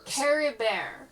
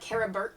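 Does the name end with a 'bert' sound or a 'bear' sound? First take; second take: bear; bert. First: The name ends in a 'bear' sound. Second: The name ends in a 'bert' sound. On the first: The speaker calls it right. "like Camembert" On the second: The speaker calls it wrong. "spelled like it's spelled like Carabert, but it's not. It's not pronounced like that"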